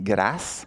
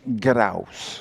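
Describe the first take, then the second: First: It is said with a France French pronunciation. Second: It is said with a Quebec French pronunciation. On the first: "En France, on dit grâce" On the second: "mais ici au Québec, on dit grâce"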